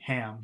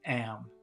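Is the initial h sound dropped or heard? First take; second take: heard; dropped. First: The word starts with an h sound. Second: The word starts without an h sound. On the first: "instead of saying Ham" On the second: "she's saying Am"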